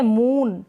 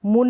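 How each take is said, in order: First: मून with the oo held long. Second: मून said as "mun", short u; the mistaken मून, vowel kept brief. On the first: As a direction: stretch the vowel of मून. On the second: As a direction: cut the oo of मून to a quick u. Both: Shown as a demonstration. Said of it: "मून नहीं है".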